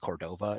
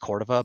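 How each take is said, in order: First: The name is pronounced the Anglicized way. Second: The name is pronounced the Spanish way. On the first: This is how it is said in Colorado. The speaker calls it wrong. "but out here in Colorado, it's Cordova" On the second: This is how it is said in New Mexico. The speaker calls it right. "So in New Mexico, it's pronounced Cordova"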